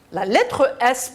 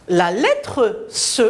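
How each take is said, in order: First: Said in the usual way. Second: "S" said as a hissed "se"; slowly name "S" by its sound, se; voiceless "se" in place of the letter name "S". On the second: Shown as a demonstration.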